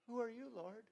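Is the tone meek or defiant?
meek. It is said meekly and humbly.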